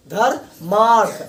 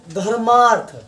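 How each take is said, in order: First: धर्मार्थ drawn out slowly, each syllable clear; slow demo pronunciation. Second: Said in the usual way. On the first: Shown as a demonstration. Teacher slowly sounding out धर्मार्थ for students. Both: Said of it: "इसको उच्चारण करते हैं".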